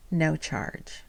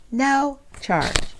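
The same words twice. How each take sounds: First: Softer, understated reveal; quiet. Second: Higher, delighted repeat; excited emphasis. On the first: Telling viewers the tube was free, softly. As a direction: let it drop quietly first. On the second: Repeating to viewers the tube was free, delighted. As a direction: lift it up in happy disbelief. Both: Real, not acted.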